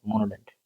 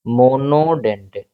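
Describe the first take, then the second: First: Said in the usual way. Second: "monodentate" drawn out syllable by syllable; term broken down. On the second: Shown as a demonstration. Teacher giving students a new term, "monodentate" slowly broken up. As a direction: stretch out "monodentate" in slow, separate parts.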